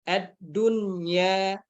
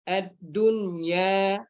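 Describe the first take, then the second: First: The n sound is pronounced clearly before y. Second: The same.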